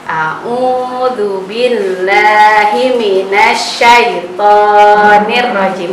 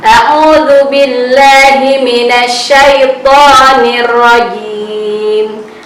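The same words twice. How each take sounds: First: The long vowels are cut short. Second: The long vowels are held for two counts. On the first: The speaker calls it wrong. "Jadi tidak begini bacanya" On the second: The speaker calls it right. "itu harus dibaca dua harokat"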